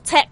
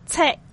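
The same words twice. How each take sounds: First: The final k is audibly released. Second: The final k is cut off, not released. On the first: The speaker calls it wrong. "你就唔好读check 系错嘅" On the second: The speaker calls it right. "而家呢一个字我哋就读check check"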